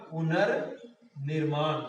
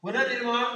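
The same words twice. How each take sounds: First: पुनर्निर्माण drawn out, पुनर् apart from निर्माण; slow, lower teaching repeat of पुनर्निर्माण; slow dictation. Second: Said in the usual way. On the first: Shown as a demonstration. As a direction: say पुनर्निर्माण at half speed, in two parts. Teacher spells out the joined word slowly.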